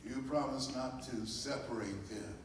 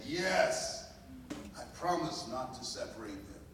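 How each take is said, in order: First: Said in the usual way. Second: Firmer, a touch louder promise; stronger voice. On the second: Retold or imitated. Mother answering the birth mother in a stronger voice. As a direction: answer with a steadier, stronger vow. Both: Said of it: "said in a stronger voice".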